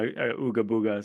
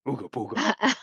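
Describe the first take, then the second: First: Caveman voice. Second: Dopey cartoon bellow. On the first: Retold or imitated. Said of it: "she calls me a". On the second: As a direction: boom it like a dim cartoon caveman. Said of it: "So I go".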